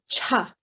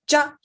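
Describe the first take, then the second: First: The first sound has a strong puff of air. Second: The first sound has no puff of air. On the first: "You should feel the air from your mouth hitting your hand on the, the second one" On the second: "no air"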